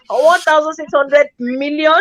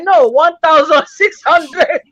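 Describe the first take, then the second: First: "One thousand six hundred million?" as a query running on into MILLION; questioning check. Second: Slow "No, one thousand six hundred", each word spaced out; deliberate correction. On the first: Bank manager checking the customer's balance, questioning. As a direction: query the amount, landing on "million". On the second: Customer correcting the bank manager's figure, slow and deliberate. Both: Retold or imitated.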